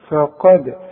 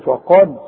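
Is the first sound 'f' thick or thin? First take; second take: thin; thick. First: The first 'f' sound is thin and light. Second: The first 'f' sound is thick and heavy. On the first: The speaker calls it right. "هنقول فا ورجع لي شفايفك على هيئه ابتسامه" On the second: The speaker calls it wrong. "اوعى تقول لي فقد"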